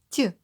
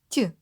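No difference in how they are said.

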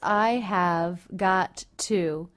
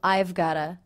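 First: Every word is pronounced fully and separately. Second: It is contracted, and got to becomes gotta. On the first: "the words I have got to" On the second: "can reduce to I've gotta"

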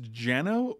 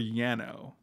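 First: The name begins with a J sound. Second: The name begins with a Y sound.

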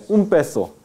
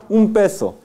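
The two takes are said the same way.

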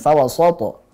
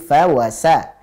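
First: The S sound is heavy and thick. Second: The S sound is light and thin. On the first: The speaker calls it wrong. "jangan fawasato" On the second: The speaker calls it right. "sa, tipiskan"

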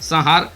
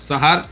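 No difference in how they are said.

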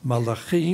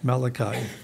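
First: The name is pronounced the Hebrew way. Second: The name is pronounced the English way. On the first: "In Hebrew, it's Malachi" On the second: "and in English, Malachi"

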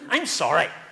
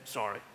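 First: It is said aloud in a grudging voice. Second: It is whispered under the breath.

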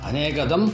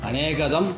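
Both takes have the same delivery.

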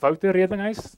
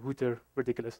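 First: The name is said with a South African pronunciation. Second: The name is said with an American pronunciation. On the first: The speaker calls it right. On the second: The speaker calls it wrong.

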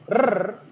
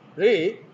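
First: The r is a rolled trill. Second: The r is one quick tap. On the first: "that is trill" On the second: "that is tap"

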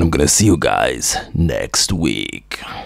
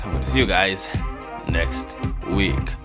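First: It is said in a put-on character voice. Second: It is said in the speaker's natural voice.

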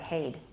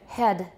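First: The vowel sounds like 'ay', as in 'hayed'. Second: The vowel is a short 'eh' sound. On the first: "That's the way they say head in Singapore" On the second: "for American"

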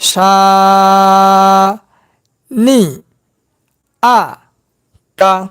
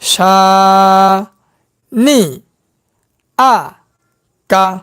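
First: The syllables are spoken separately with breaks. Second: The same.

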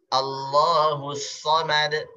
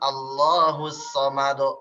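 First: The final echo is thin, toward an e sound. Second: The final echo is thick, toward an o sound. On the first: The speaker calls it right. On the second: The speaker calls it wrong. "bukan ... do, do"

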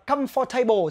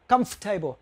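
First: The middle 'for' syllable is fully pronounced. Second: The middle 'for' syllable is dropped. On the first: "nhiều người có thể đọc, khi các bạn đọc là comfortable thì ai cũng hiểu" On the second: "cái từ for này là nó là âm câm"

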